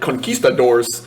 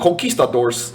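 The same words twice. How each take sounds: First: It is said with a plain English accent. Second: It is said with a Spanish-style accent.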